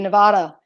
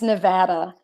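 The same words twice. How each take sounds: First: It is said the way the spelling suggests. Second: It is said the way local residents say it. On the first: "if you pronounce it phonetically, it looks like it should be Nevada" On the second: "it's Nevada"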